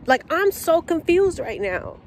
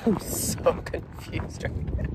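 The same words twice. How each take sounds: First: High, incredulous complaint; can't believe this is happening; exasperated disbelief. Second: Soft whispered giggle through the words; breathless disbelieving laugh. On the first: Venting to viewers about the missing order, high and disbelieving. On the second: Repeating the complaint to viewers, whispered and laughing. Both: Real, not acted.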